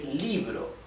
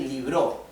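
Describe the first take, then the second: First: The stress is on the first syllable. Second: The stress is on the second syllable. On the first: The speaker calls it right. "we say libro. The stress is on letter I" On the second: The speaker calls it wrong. "We do not say libro"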